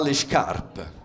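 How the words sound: The s before the consonant sounds like sh. The speaker calls it right. "Les S devant les consonnes se prononcent ch"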